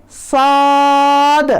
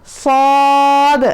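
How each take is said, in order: Both takes have the same delivery.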